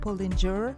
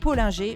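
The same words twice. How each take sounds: First: The name is said with an American pronunciation. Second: The name is said with a French pronunciation. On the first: "vu qu'il est américain, j'imagine que ça doit se prononcer" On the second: "Je prononce à la française, à la mosellane"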